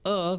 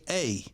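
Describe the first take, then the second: First: The article is said with a short, weak 'uh' vowel. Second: The article is said with a full 'ay' vowel. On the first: The speaker calls it right. "When they should say uh" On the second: The speaker calls it wrong. "they say a"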